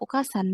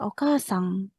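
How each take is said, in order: First: The word ends in a plain n sound. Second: The word ends in a weak ng sound. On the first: The speaker calls it wrong. "Kan bukan okasan kan?" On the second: The speaker calls it right. "Iya, okasang"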